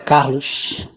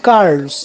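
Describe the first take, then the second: First: It is said with a Rio de Janeiro accent. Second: It is said with an inland São Paulo accent.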